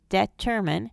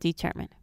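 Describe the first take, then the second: First: The first vowel is a short e. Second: The first vowel is a long e. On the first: The speaker calls it wrong. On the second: The speaker calls it right.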